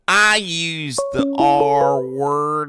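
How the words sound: It is read in a put-on character voice.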